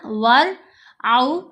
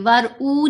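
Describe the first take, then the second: First: The word ends in an aw diphthong. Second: The word ends in a long oo sound. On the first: The speaker calls it right. "आउ आवाज बनेगी" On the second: The speaker calls it wrong. "नहीं पढ़ना"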